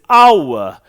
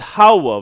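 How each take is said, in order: First: The word begins with a vowel sound. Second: The word begins with an h sound. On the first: The speaker calls it right. "we read it as our" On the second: The speaker calls it wrong. "don't read it as how"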